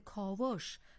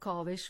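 First: The vowel before the final sh is o. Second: The vowel before the final sh is e. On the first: This is the common popular usage. The speaker calls it wrong. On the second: This follows the pattern of similar words. The speaker calls it right. "همه با کسره تلفظ می شوند. خب کاوش و تراوش هم از همین دسته هستند"

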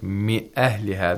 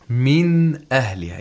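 First: The n sound is hidden and not clearly pronounced. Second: The n sound is pronounced clearly and fully. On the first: The speaker calls it wrong. "that's impossible" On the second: The speaker calls it right. "You have to pronounce the noon sakina clearly and from its own place of articulation"

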